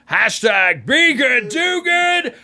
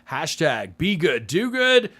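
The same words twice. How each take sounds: First: It is said at a medium volume. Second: It is said at the softest volume. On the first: "louder and louder" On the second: "we get louder and louder as we go"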